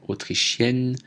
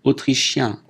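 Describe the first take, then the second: First: Autrichienne ending in èn, n sounded; feminine pronunciation. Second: Autrichien ending in a nasal vowel, no n; masculine pronunciation. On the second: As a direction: keep the n of autrichien silent. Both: Shown as a demonstration. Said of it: "prononciation différente".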